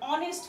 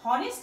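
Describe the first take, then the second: First: The word begins with a vowel sound. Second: The word begins with an h sound. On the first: The speaker calls it right. "এইচটা হচ্ছে এখানে উজ্জ রয়েছে" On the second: The speaker calls it wrong. "অনেস্ট এর উচ্চারণ হনেস্ট না হয়ে"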